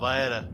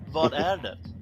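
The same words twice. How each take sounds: First: The words are slurred together and reduced. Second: Each word is pronounced fully and clearly.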